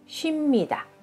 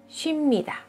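The two takes are said the same way.

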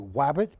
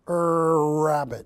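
First: The word begins with a W sound. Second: The word begins with an R sound. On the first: The speaker calls it wrong. "Don't say wabbit" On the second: The speaker calls it right. "Go rabbit"

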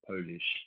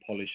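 First: The first vowel sounds like the vowel in 'pole'. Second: The first vowel sounds like the vowel in 'pot'. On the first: Something from Poland. "and not Polish" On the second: To make something shiny. "I'm saying Polish"

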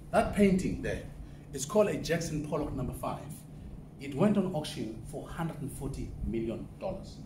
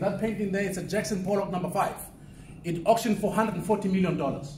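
First: It is said very slowly. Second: It is said at normal speed.

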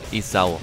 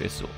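First: The name is pronounced the German way, 'E-sau'. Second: The name is pronounced the French way, like 'Esso'. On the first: The speaker calls it right. "Ist ja auch richtig" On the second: The speaker calls it wrong. "Ich soll ihn nicht so französisch aussprechen"

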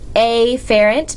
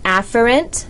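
First: The first vowel is a clear A sound. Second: The first vowel is reduced and unclear. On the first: "I prefer to pronounce it afferent because it reminds me that it starts with an A" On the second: "Some people pronounce that afferent"

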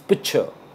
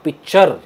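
First: The final r sound is dropped. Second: The final r sound is clearly pronounced. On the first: The speaker calls it right. "Again we don't pronounce the आर" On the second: The speaker calls it wrong. "And not"

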